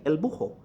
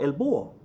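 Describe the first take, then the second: First: "bujo" with a breathed H between vowels; slight aspiration. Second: "búho" with U running into O; dropped H. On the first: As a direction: say "bujo" as BOO-ho. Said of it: "there's a slight aspiration". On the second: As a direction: say "búho" as BOO-o. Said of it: "they get rid of the H". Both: Shown as a demonstration.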